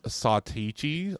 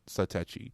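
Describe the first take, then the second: First: The name is said with an unexpected different vowel. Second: The name is said with Japanese-style vowels. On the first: The company itself says it in an unexpected way. "they always come out with some wackadoo. Uh, actually, it's" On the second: This is how a Japanese company would say it. "if they phrase it in Japanese, it would be"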